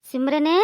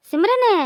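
First: Said in the usual way. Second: Higher second call of the name; insistent call. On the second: Acted. Calling her louder second time. (உரக்கக் கூப்பிடும் குரல்)

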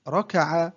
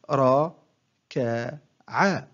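First: Said in the usual way. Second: One short syllable at a time, with pauses; broken into syllables. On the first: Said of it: "أقطع الكلمة". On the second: Shown as a demonstration. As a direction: separate each syllable for a learner to copy. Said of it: "أقطع الكلمة إلى مقاطع قصيرة". (تقطيع الكلمة مقطعًا مقطعًا بوقفات)

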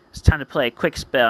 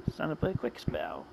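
First: Said in the usual way. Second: Very soft, low aside; quiet, lowered repeat to yourself; hushed. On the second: Acted. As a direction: say it low and under your voice. Repeat of the line, much softer.

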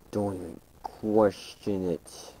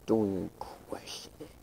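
First: Said in the usual way. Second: Much softer, breathy whisper. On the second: Acted. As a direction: breathe it like a secret. Same line voiced, then whispered.

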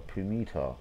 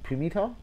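First: Pumita said flat and sure, falling at the end; falling statement. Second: Pumita? asked, rising at the end; questioning rise. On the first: Sounding out a fan's name, settling on it. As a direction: try out Pumita as a plain statement. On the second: Sounding out a fan's name, unsure if it's right. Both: Shown as a demonstration. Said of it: "Bainesy Pu".

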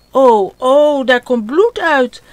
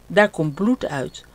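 First: Louder, higher whimpering wail; a child starting to cry at his bleeding hand. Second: Said in the usual way. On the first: Acted. Ot seeing blood on his hand, tearful wail. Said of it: "En Ot begint te huilen".

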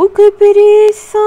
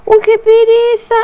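First: Much higher, louder, whiny sigh of laziness; groaning reluctance. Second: A lighter echo of the same lazy moan; groaning reluctance again. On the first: Herself groaning at the empty water jug, whiny and much higher. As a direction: ham up not wanting to carry the water. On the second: Herself repeating her lazy moan about the water, whiny and much higher. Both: Retold or imitated.

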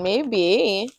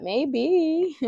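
First: A lilting, drawn-out "Maybe." that rises and falls; an accidental sing-song "Maybe.". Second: "Maybe." echoed much higher, hamming up the lilt; mock her own tune on "Maybe.", pitched way up; a playful, much higher re-enactment of "Maybe."; exaggerated sing-song repeat. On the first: Real, not acted. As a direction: let "Maybe." float up and down like a little tune. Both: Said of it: "I don't know why I said it like that".

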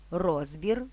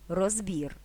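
First: РОЗбір, stress at the start, rising end; stress on first syllable. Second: РозБІР, stress at the end, falling tune; stress on last syllable. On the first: (наголос на перший склад: РОЗбір) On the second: (наголос на останній склад: розБІР) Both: Shown as a demonstration. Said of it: "подвійним наголосом".

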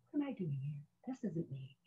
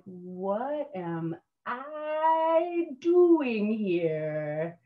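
First: Very soft, almost to yourself; small inner dismay. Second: Long, high stretched-out wail of disbelief; drawn-out dismay. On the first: New recruit doubting herself in the cattle car, small and hushed. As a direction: shrink it to a tiny private aside. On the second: New recruit in the rocking cattle car, drawn-out dismay. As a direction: stretch it right out, falling on "here". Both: Retold or imitated.

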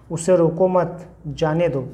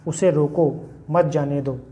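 First: "उसे रोको मत" as one phrase, then "जाने दो"; pause after मत. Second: "उसे रोको", pause, then "मत जाने दो"; pause after रोको. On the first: Teacher showing students a comma that means let him go, pause after मत. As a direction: join मत onto रोको and break before जाने. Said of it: "मैं यहाँ पे कॉमा लगा दूँ". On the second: Teacher showing students a comma that means stop him, pause after रोको. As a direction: break right after रोको, keeping मत with जाने दो. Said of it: "यहाँ पे कॉमा लगा देते हैं". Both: Shown as a demonstration.

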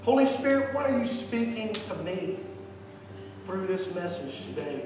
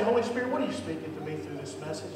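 First: Modelled prayer. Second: Fast prayer line, rattled off; quick first take. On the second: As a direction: rush through the prayer. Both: Shown as a demonstration. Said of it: "just say it like that".

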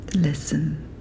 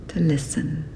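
The two takes are said the same way.

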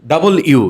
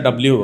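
First: "ডাবল ইউ" as two words, "double you", loud; firm teacher's model "ডাবল ইউ"; corrected W. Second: "ডাব্লিউ" run together as "dab-liu"; local-style letter "ডাব্লিউ", middle vowel swallowed; students' old W. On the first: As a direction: separate "ডাবল" from "ইউ" clearly. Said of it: "কি বলতে হবে?". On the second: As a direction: squash "ডাব্লিউ" into the Bangla form. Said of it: "তোমরা বলছিলে ডাব্লিউ". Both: Shown as a demonstration.

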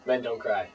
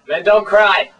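First: Said in the usual way. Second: Loud, higher-pitched reprimand; stern shout. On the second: Acted. Host scolding Cotton for crying at the show's end, stern shout.

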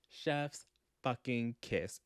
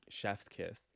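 First: "Chef's... fucking... kiss", each word set apart; slow emphatic praise. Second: Said in the usual way. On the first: Real, not acted. Book vlogger raving about the scene, slow emphatic delivery. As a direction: draw it out slowly, weight on every word.

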